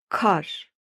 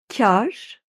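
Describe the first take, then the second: First: The k and the a sound plain. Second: The k and the a sound softened. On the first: It means snow. "şapkasız telaffuz edersen farklı anlama geliyor" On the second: It means profit. "şapkalı telaffuz edersen farklı anlama geliyor"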